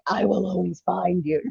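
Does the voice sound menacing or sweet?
menacing. It is said in a menacing, threatening tone. The writer is making a threat. "blood dripping off of it and kind of jagged letters"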